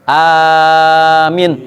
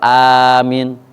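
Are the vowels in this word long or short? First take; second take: long; short. First: Both vowels are drawn out long. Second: The vowels are said short. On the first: It asks God to grant the prayer. The speaker calls it right. "amin panjang dua-duanya" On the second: It means safe. The speaker calls it wrong. "Kalau amin aman"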